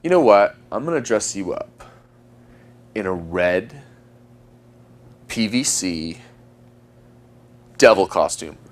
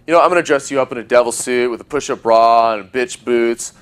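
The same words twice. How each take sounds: First: Slow build with long pauses between phrases. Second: Rattled off in one breath, no pauses; just blurt the whole line out. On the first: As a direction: hold each beat to build tension. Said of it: "That's why I use the pausing". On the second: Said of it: "If I just blurt these lines out". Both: Shown as a demonstration.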